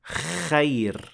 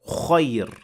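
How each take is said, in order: First: The first sound is made with a hollow mouth. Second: The first sound has an added rounded O. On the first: "that is an empty mouth kha. That is not correct" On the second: "That is adding an O to the beginning of the letter, and that is not correct either"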